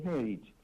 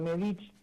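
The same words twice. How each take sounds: First: The stress is on the first syllable. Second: The stress is on the second syllable. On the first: This is the original Croatian pronunciation. "porque lleva un acento en la E" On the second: This is the local Argentine adaptation. "acá lo argentinizamos"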